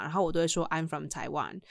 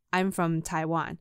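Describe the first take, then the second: First: Said in the usual way. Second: Slow, deliberate "I'm from Taiwan"; slow insistence. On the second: Retold or imitated. Repeating the answer to a doubting colleague, slow and deliberate. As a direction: spell it out patiently for them.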